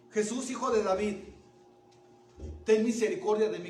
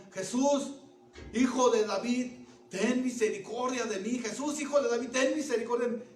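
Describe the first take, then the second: First: Loud cry for mercy; shouted plea. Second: Loud, high, insistent cry; intensified shouting. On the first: Blind man to Jesus despite being silenced, shouting out. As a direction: shout it out to be heard. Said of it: "gritó". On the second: Blind man to Jesus from the depths of his heart, intensified shouting. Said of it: "Gritó más fuerte". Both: Acted.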